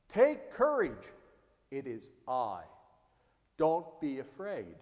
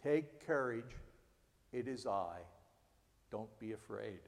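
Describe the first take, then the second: First: Reassuring. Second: Lower, softer comforting words; gently calm a frightened friend; soft reassurance. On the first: Jesus reassuring frightened disciples. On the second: Pastor repeating Jesus' words softly to comfort. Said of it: "reminder to provide comfort". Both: Acted.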